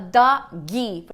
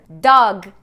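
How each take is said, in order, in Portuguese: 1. Um som de vogal extra vem depois do g final. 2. A palavra termina no som de g.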